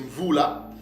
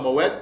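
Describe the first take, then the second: First: The word is pronounced like 'voula'. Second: The word is pronounced like 'moed'. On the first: The speaker calls it right. "mais c'est vous là" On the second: The speaker calls it wrong. "ce mot-là ne se prononce pas Moed"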